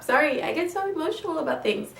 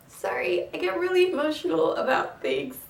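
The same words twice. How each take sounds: First: Said in the usual way. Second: Apologizing while welling up; tearing up. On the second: Real, not acted. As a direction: voice lifted high, choked with real emotion. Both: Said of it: "see me tear up".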